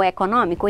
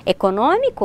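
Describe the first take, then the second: First: Econômico with an open stressed ó; open vowel. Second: Econômico with a closed stressed ô; closed vowel. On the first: Teacher offering both forms, econômico with open ó. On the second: Teacher offering both forms, Econômico with closed ô. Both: Shown as a demonstration. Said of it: "com o som mais aberto".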